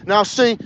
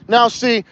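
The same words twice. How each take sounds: The two takes are said the same way.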